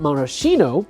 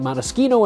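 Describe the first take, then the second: First: The middle consonant is a soft sh sound. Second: The middle consonant is a hard k sound. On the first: The speaker calls it wrong. "and not maraschino" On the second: The speaker calls it right. "the reason why I'm saying maraschino"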